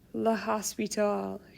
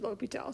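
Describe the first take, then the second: First: The S in the middle is pronounced. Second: The S in the middle is silent. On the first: The speaker calls it wrong. "This is not pronounced La Hospital" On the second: The speaker calls it right. "That S is not pronounced"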